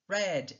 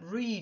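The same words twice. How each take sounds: First: It is said as the past-tense form. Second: It is said as the present-tense form. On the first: "il se prononce au prétérit read" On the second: "Le verbe read"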